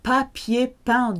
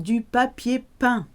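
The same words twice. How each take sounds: First: Slow model. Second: Said in the usual way. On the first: Shown as a demonstration. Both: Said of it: "past participle used as an adjective".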